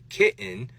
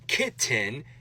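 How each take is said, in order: First: The middle T is a glottal stop. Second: The middle T is a full released T. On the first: "change it to a glottal stop" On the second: "take that hard T sound"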